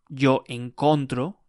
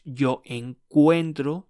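First: Yo encontro, with a plain o in encontro; wrong form encontro. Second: Yo encuentro, slow, with ue in encuentro; correct form encuentro. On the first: Teacher showing the wrong verb form, encontro with plain o. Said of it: "It's not". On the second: Teacher modelling the right form, encuentro slow with ue. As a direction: stretch encuentro slowly, stressing the ue. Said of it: "It's not yo encontro". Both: Shown as a demonstration.

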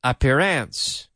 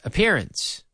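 First: Appearance with the a of apple, stress at the start; wrong stress. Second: Appearance with stress on pear, a-PEAR-ence; correct stress. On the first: Teacher shows the wrong way to say appearance, stress on the first syllable. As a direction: say appearance wrongly, like APP-earance. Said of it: "we don't say". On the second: Teacher models appearance for students, stress on pear. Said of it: "It's appearance". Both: Shown as a demonstration.

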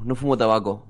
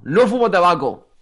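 First: Said in the usual way. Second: Louder, slower, drawn-out denial; emphatic insistence. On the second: Real, not acted. Guest insisting to friends about smoking, loud emphatic denial. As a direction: raise pitch and hammer it home.

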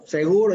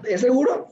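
First: "Seguro" back at usual pitch, as confirmation; confirming answer. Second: "seguro" lifted higher as a question; checking question. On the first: Dad confirming to Leo, assured answer. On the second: Leo checking with dad on the plan, questioning. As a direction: ask "seguro" with a questioning rise. Retold question, then its answer. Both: Retold or imitated.

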